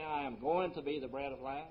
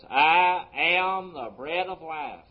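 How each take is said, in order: First: Said in the usual way. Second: "I am" drawn out slow and loud; slow, emphatic "I AM"; stress on AM. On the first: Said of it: "He didn't say". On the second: Retold or imitated. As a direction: declare "I am" with weight, each word held. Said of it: "present tense".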